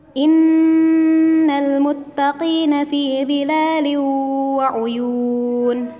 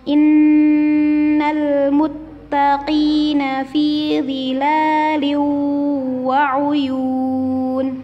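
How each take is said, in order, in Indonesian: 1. Dibaca dengan kecepatan sedang. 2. Dibaca dengan lambat dan tenang. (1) "kecepatan sedang antara cepat dan lambat" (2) "membaca Al-Quran dengan lambat dan tenang"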